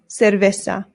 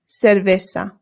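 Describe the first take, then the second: First: The C and Z sound like s. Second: The same.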